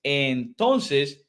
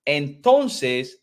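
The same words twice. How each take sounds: The two takes are said the same way.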